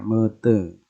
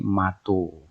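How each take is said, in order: First: Both vowels of the word are e. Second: The word ends in an o vowel. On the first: This is how the E-E dialect says it. "kalau dia menyebut mata itu menjadi mete" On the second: This is how the A-O dialect says it. "yang Aibuka menjadi mato"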